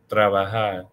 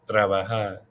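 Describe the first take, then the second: Both takes have the same delivery.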